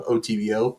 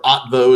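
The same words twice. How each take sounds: First: "O T V O" read letter by letter; spelled-out letters. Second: "otvo" run together as one word; pronounced as word. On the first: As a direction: say each letter of "O T V O" separately. As most people like to pronounce it. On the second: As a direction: blend the letters into a louder "otvo". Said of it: "as most people like to pronounce it". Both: Shown as a demonstration.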